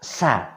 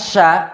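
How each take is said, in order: First: The letter starts with a plain 's' sound. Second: The letter starts with a 'sh' sound. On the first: The speaker calls it wrong. "Jangan sampai anak keliru membaca" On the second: The speaker calls it right. "Yang seharusnya Sya"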